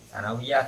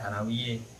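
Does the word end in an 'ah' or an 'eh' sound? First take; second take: ah; eh. First: The word ends in a plain 'ah' sound. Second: The word ends in a tilted 'eh' sound.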